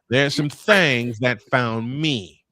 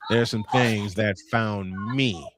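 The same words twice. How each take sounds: First: It is said in a put-on Southern accent. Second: It is said in his ordinary accent.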